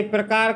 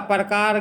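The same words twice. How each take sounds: First: Said in the usual way. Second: प्रकार with a vowel before the r; mispronounced ra cluster. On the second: Shown as a demonstration. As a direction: say प्रकार as "par-kaar". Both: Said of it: "रा की गलतियां अत्यधिक होती हैं".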